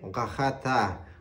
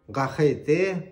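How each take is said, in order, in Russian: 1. Оно заканчивается на звук 'ta'. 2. Оно заканчивается на звук 'te'.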